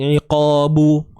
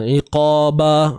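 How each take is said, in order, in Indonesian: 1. B terakhir diikuti vokal u. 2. B terakhir diikuti vokal a. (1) "dia bukan begitulah, hindar" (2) "dia bukan begitulah, hindar"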